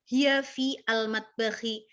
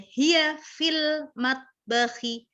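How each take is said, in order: First: The article is pronounced fully and separately. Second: The article is merged into the preceding word. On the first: The speaker calls it wrong. "nggak perlu kesusahan" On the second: The speaker calls it right. "biar ringan langsung aja"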